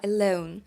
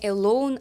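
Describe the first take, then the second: First: The vowel glides like a diphthong. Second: The vowel is a plain, flat o. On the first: The speaker calls it right. "а alone" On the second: The speaker calls it wrong. "не alone"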